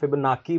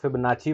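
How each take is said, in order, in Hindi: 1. आखिरी स्वर से पहले का व्यंजन k है। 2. आखिरी स्वर से पहले का व्यंजन ch है। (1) "कुछ लोग फिबनाकी बोलते हैं" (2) "लोग फिबनाची बोलते हैं"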